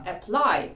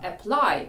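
First: The stress is on the second syllable. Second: The same.

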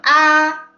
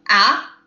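First: The syllable is said in the first tone. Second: The syllable is said in the second tone. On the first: "primer tono" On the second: "segundo tono"

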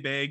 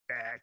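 First: The vowel has a Canadian-like, raised sound. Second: The vowel has a general American, open sound. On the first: This is how the speaker naturally says it. "I say bag. I didn't realize I had a Canadian accent" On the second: This is how other people say it. "They say bag"

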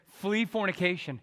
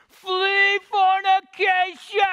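First: It is said at normal volume. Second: It is yelled at the top of his lungs.

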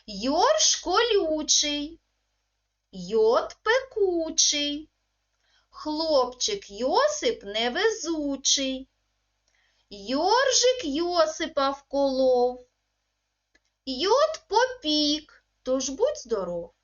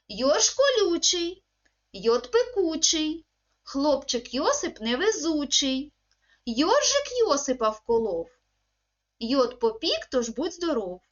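First: It is said at a slow, careful pace. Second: It is said at a faster pace. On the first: "я проговорюю, ви за мною" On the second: "пробуємо повторювати скоромовочку швидше"

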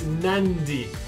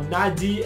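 First: An n sound comes just before the d. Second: The d is said with no n before it. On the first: The speaker calls it right. "It's Nandi. So a word that will have a D in the middle kind of has an N just before the D" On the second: The speaker calls it wrong. "you're not going to land in Nadi Airport"

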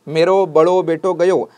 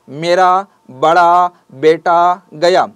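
First: Each word ends in an 'oh' vowel. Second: Each word ends in an 'ah' vowel. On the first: "ऊ का लहजा रखने वाली बोली में" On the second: "हर लफ्ज जहां पर खत्म हो रहा है वो आ का लहजा है"

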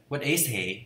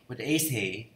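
No difference in how they are said.

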